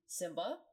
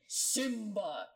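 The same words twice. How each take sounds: First: It is said casually, without dramatic force. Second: It is said with strong dramatic force.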